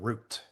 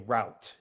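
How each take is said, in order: First: It is said in a British accent. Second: It is said in an American accent. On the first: "instead of route" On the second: "American English, I would say route"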